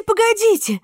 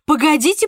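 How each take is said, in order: First: Excited, much higher. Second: Rising, eager call. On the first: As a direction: burst out far higher. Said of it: "excited repeat, second take". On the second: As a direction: start to get excited. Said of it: "excited repeat, first take". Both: Acted.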